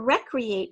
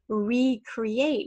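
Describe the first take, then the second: First: The first syllable is said as a short 'reck'. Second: The first syllable is said as a full 'ree'. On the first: Someone has fun and enjoys themselves. "a word that means like recreation" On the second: Something is created again. "means to create something again"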